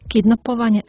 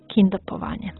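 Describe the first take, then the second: First: The word begins with the sounds kidnap. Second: The word begins with the sounds kindap. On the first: The speaker calls it right. "treba ga izgovoriti baš tako" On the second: The speaker calls it wrong. "a ne"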